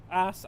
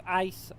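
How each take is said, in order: First: "Ice" as "ahs", the glide dropped; drawled pronunciation. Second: "ice" with a full "eye" glide; standard pronunciation. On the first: Player toying with ways to say the word, "Ice" as "ahs". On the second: Player toying with ways to say the word, "ice" with full glide. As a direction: say "ice" as "eyess", both vowel parts heard. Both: Shown as a demonstration. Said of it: "however you wanna say it".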